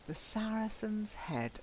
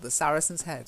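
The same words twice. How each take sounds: First: It is said quietly, with less stress. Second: It is said outward, with full stress. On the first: The speaker is reminding himself. The speaker calls it right. "I'm reminding myself" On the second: It is said to someone else. The speaker calls it wrong. "You don't say it the same as"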